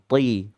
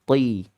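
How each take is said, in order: The two takes are said the same way.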